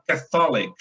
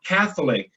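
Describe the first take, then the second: First: "Catholic" stressed on the middle syllable, ca-THO-lic; mistaken Portuguese-like stress. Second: "Catholic" stressed on the first syllable, CATH; "Catholic" as CATH-lic, English stress; correct English stress. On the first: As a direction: lean on the THO of "Catholic", as in católico. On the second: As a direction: hit the start of "Catholic", let the rest fall. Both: Shown as a demonstration. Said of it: "o estresse da sílaba tá no católico".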